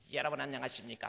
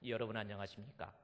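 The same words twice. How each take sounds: First: It is said in an ordinary, unlowered voice. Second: It is said in a lowered, deep voice. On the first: "딱 여러분 안녕하십니까 막 이러는 것보다는" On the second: "목소리 깔고 해야 좀 거룩하게 보이니까"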